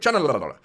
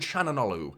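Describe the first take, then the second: First: The name is said quickly and loosely. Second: The name is said carefully and fully. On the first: An easy way out for those who struggle with pronunciation. "you just go Chananolu like that" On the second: The official pronunciation of the name. "is I think how you officially pronounce that"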